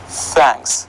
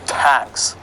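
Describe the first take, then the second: First: The th at the start sounds soft. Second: The th at the start sounds hard. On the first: The speaker calls it right. "It is thanks" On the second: The speaker calls it wrong. "So it is not the hard th"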